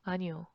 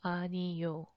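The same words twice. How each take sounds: First: It is said quickly, squeezed into two syllables. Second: It is said slowly, with all three syllables. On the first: "when you speak fast, uh, the sounds become"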